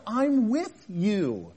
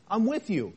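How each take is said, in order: First: Slow, stretched I'M WITH YOU; emphatic reassurance. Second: Said in the usual way. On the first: Acted. God to Elijah at his lowest, emphatic reassurance. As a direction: draw out "with you" to let it sink in.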